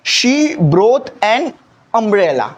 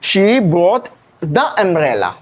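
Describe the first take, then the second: First: Slow example. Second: She brought the umbrella, each word drawn out slowly; slow example sentence. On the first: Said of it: "normal सा umbrella है". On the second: Teacher showing the special umbrella sentence, slow and deliberate. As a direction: read the example slowly so every word lands. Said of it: "तो आप क्या बोलते हैं?". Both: Shown as a demonstration.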